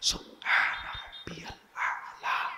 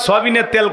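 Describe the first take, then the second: First: The phrase is said clearly with each word distinct. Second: The phrase is mumbled with the words run together. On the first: The speaker calls it right. "Clear বলতে হবে" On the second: The speaker calls it wrong. "খালি শব্দ সুবহানাল্লাহ কয় না, সবিনের তেল কয়"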